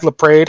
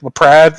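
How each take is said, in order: First: LaPrade with a long "a", rhyming with "made"; alternative pronunciation. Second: LaPrade with a short "a", rhyming with "add"; variant pronunciation. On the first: Host offers another reading of a surname, LaPrade said like "luh-PRAYD". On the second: Host tries a fan's surname, LaPrade said like "luh-PRAD". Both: Shown as a demonstration. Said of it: "however you wanna pronounce it".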